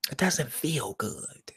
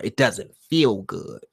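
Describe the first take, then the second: First: Whispered, slow and hushed; a soft whispered echo of the line. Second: Said in the usual way. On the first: Shown as a demonstration. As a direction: breathe the words out with no voice. Repeats the quote softly.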